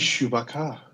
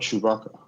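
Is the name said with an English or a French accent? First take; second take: French; English. First: The name is said with a French accent. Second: The name is said with an English accent.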